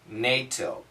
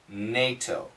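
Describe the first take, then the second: No difference in how they are said.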